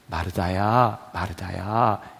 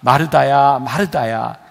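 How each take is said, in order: First: It is said in a warm, loving tone. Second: It is said in a stern, rebuking tone.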